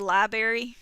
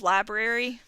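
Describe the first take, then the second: First: It is said the local regional way. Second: It is said the standard way.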